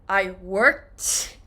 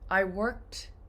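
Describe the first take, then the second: First: The final T is exaggerated and strong. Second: The final T is quick and soft. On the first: The speaker calls it wrong. "Americans don't say, I worked" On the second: The speaker calls it right. "It's very fast and soft"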